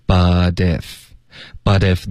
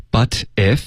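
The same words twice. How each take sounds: First: Slow "But if" as buh-dif; linked, voiced T. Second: Said in the usual way. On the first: Shown as a demonstration. Teacher showing liaison and voicing, linked buh-dif. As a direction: join "But if" with the T softened to a d. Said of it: "我们会连读". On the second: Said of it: "然后把T的音浊化".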